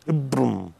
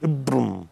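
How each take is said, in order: First: The name is shortened to two syllables. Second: The same.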